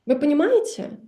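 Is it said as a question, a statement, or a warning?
question. It is said as an asking question. Do you understand? "and that is a question"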